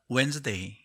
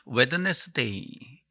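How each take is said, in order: First: The d is silent and the word is shortened. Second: Every letter is sounded, including the d. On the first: "짐작하셨을 겁니다" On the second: "그런 방식으로 외우던 단어들"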